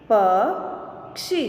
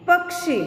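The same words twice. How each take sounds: First: Slow, each sound drawn out, rising at the end; slow drawn-out reading. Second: Said in the usual way. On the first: Shown as a demonstration. Teacher slowly sounding out a word for students, drawn out. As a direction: stretch the word slowly for the class. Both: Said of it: "अब इसका शब्द हम देखें".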